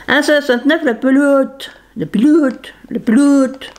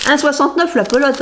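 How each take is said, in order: First: "pelote" playfully distorted towards "ploute"; silly "pelote". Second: Said in the usual way. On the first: Pretend. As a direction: say "pelote" with a long comic "ou" in place of the "o". Redit le prix en déformant pelote. (« pelote » déformé pour rire en « ploute »)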